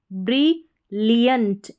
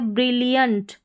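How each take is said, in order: First: brilliant drawn out, every syllable clear; slow model word. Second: Said in the usual way. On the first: Shown as a demonstration. Teacher models the word for students, slowly.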